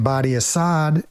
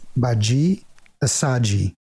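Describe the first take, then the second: First: The first name has a hard 'd' sound. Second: The first name has a soft 'j' sound. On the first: The speaker calls it wrong. "I was pronouncing like a gringo" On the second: The speaker calls it right. "The pronunciation is Baji Asaji"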